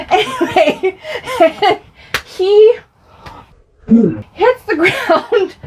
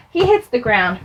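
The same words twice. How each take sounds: First: High, helpless laughter through the words; laughing. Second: Said in the usual way. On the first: Real, not acted. Telling of brother's fall, laughing hard. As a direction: struggle to get it out while laughing. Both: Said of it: "I shouldn't laugh".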